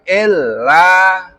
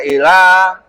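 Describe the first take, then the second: First: The l sound is held and doubled. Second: The l sound is short and single. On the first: The speaker calls it right. "perhatikan ada tasdid lam" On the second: The speaker calls it wrong. "jangan sampai dibaca illa"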